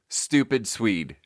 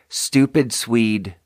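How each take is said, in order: First: The S sounds are very sharp and hissy. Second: The S sounds are softer and less hissy. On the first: The speaker calls it wrong. "Super sharp" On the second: The speaker calls it right. "it's a much softer S sound"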